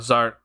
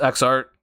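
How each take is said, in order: First: The name starts with a z sound. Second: The name starts with the spoken letter X. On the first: "if I'm saying that right" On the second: "maybe it's just X art"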